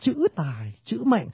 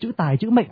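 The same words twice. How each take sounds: First: The paired syllables carry equally strong stress. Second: Syllables alternate between weak and strong beats. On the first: The speaker calls it right. "người ta đọc là chữ tài chữ mệnh. Thế là hai cái spondy" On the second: The speaker calls it wrong. "Không ai đọc câu thơ đọc chữ tài chữ mệnh I am cả"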